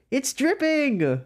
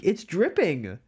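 First: Higher, slow, drawn out; dramatic repeat. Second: Said in the usual way. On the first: Pretend. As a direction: stretch it out high and slow. Dramatic repeat of same words.

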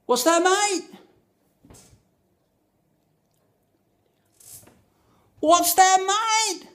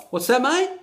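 First: High, loud shout over the music; repeated shout. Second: Mock bloke asking, pitched up high; chirpy Aussie barman asking; a high-pitched pub bloke's "What's that, mate?"; bartender's question. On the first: Retold or imitated. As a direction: yell it over blaring music. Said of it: "So I repeated". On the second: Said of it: "to which he replied".

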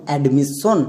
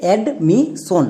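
First: "অ্যাডমিশন" as ad-mis-son, s doubled; wrong double s. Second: Slow "অ্যাডমিশন" as ad, mi, son; syllable by syllable. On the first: Teacher demonstrates the common mistake, double-s "অ্যাডমিশন". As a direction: lengthen the s before "son" in "অ্যাডমিশন". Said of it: "আমরা প্রথমে ভুল উচ্চারণ করব". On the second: Teacher introduces the word, slow single-s "অ্যাডমিশন". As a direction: break "অ্যাডমিশন" slowly into three parts, one s. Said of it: "আমরা কি উচ্চারণ করব". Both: Shown as a demonstration.

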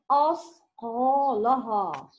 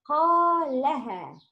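First: أثقالها with a rounded, heavy-sounding vowel; teacher shows how a student should not say أثقالها; wrong reading. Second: أثقالها with heavy ق and light لام; teacher models the correct أثقالها for a student; correct reading. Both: Shown as a demonstration. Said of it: "Not أثقالها".

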